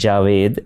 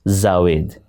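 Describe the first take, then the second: First: The name begins with a j sound. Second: The name begins with a z sound. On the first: The speaker calls it right. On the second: The speaker calls it wrong.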